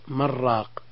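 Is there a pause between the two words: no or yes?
No. The two words merge with no pause. It can sound like one word meaning a broth seller. "إذا وصلنا من راق، صار اللفظ من راق"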